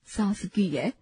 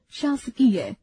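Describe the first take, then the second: First: शासकीय starting with s instead of sh; wrong pronunciation. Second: शासकीय starting with a clear sh; correct pronunciation. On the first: Teacher demonstrates the wrong form "सासकीय". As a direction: open शासकीय on a plain s. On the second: Teacher models the correct शासकीय beginning with sh. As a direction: open शासकीय on sh. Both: Shown as a demonstration. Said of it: "अशुद्ध, शुद्ध".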